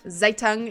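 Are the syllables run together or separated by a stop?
run together. The syllables run together without a stop. "the way that I'm speaking it"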